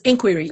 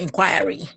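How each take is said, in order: First: The word is said without the Nigerian pronunciation. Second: The word is said with the Nigerian pronunciation. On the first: The speaker calls it right. "Nigerians, it's inquiry" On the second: The speaker calls it wrong. "It's not inquiry"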